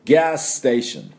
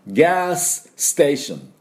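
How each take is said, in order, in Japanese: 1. 2つのs音は1つに合わさって発音します。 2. それぞれのs音は別々に発音します。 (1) "スとスをダブらせてしまって" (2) "さっきはちゃんとそう読みましたけど、普通喋るときはそういうふうに言いません"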